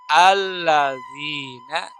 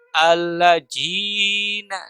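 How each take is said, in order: First: The middle consonant is a z-like sound. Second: The middle consonant is a j sound. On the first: "namanya huruf allazina" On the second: "huruf za dirubah menjadi huruf jim"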